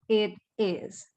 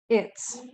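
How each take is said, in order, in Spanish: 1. El verbo se dice como una palabra separada. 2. El verbo se contrae con el pronombre. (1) "La forma completa o the long form" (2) "en la forma corta o contractor form"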